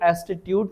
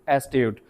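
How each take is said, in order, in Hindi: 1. इसमें एक अतिरिक्त बीच का अक्षर है, कुल तीन। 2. इसमें कोई अतिरिक्त बीच का अक्षर नहीं है, कुल दो। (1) "इसको एस्टिट्यूट ना बोलें" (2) "इसको बोलें एस्ट्यूट"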